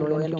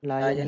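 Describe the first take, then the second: First: The first syllable sounds like 'law'. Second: The first syllable sounds like 'lie'. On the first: The speaker calls it wrong. "लॉ कहाँ से आ गया फिर इसमें, लॉयन क्यों बोलेंगे इसको" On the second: The speaker calls it right. "लायन ही बोलेंगे इसको"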